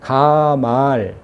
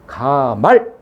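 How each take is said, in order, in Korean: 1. 이 모음은 길게 발음해요. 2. 이 모음은 짧게 발음해요.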